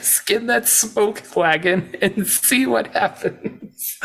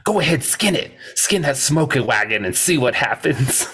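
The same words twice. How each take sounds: First: High, slow, drawn-out imitation; stretched-out mock-serious quote; Wyatt. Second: Lightly acted tough-guy dare; a hint of a lawman's challenge; Wyatt. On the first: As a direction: savor each word of the dare, on the edge of laughter. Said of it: "It's delivered seriously". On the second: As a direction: quote the dare, starting high. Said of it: "Wyatt goes".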